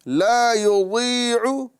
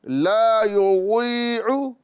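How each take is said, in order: Both takes have the same delivery.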